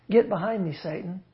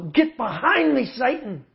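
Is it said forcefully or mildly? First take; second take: mildly; forcefully. First: It is said in a mild, gentle tone. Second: It is said in a forceful, aggressive tone.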